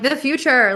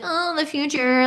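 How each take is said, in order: First: It is said in a happy, excited tone. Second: It is said in a gloomy, dreading tone.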